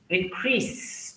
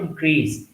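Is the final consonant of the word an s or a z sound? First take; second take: s; z. First: The final consonant is a hissing s sound. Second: The final consonant is a buzzing z sound. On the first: The speaker calls it right. "some words give S sound, not Z, like increase" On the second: The speaker calls it wrong. "not increase"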